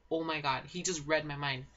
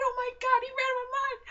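First: Said in the usual way. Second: Very high-pitched screamed disbelief; re-enacted thrilled shriek; excited yelling. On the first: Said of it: "It was like". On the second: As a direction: squeal it loud, as if watching live. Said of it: "me and my sister were yelling".

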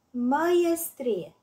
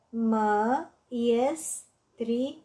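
First: Said in the usual way. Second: "Măiestrie" slowly spaced out, mă-ies-tri-e; four separate beats in "Măiestrie": mă, ies, tri, e; syllable by syllable. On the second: Shown as a demonstration. („Măiestrie” rostit rar, pe silabe: mă-ies-tri-e) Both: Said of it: "Desparte în silabe cuvintele date".

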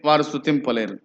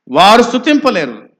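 First: Said in the usual way. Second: Raised, loud, forceful declaration; emphatic preaching. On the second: Real, not acted. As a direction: drive the point home to the congregation. Repeats the point forcefully to congregation.

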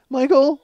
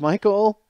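First: High, frightened call of a name; imitating a scared wife, much higher. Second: Said in the usual way. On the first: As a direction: squeak his name out, scared and pleading. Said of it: "she's, like, scared". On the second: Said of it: "I can't do her voice".

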